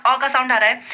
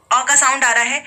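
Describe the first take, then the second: No difference in how they are said.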